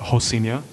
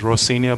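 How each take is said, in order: First: The name begins with an H sound. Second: The name begins with an R sound. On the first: This is how locals say it. "they pronounce the R as an H, ... but they pronounce it Rocinha" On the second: This is how the spelling reads. "it's actually worded out as Rocinha"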